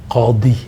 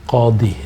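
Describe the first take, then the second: Both takes have the same delivery.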